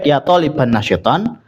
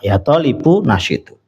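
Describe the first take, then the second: First: The nouns end with an 'an' sound. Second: The nouns end with an 'u' sound. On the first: "maka lebih baik" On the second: "seandainya dibaca dhammah juga tidak apa-apa"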